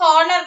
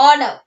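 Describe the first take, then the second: First: "honor" with the H pronounced, HON-nar; wrongly sounded H. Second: "honor" as ON-uh, no H; silent H. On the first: Teacher showing what we don't say, H sounded in "honor". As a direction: start "honor" on an audible H. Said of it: "നമ്മൾ പറയില്ല". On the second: Teacher giving pupils the correct word, silent H in "honor". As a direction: start "honor" straight on the vowel. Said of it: "Here the H is silent". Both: Shown as a demonstration.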